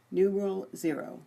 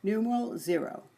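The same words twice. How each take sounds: The two takes are said the same way.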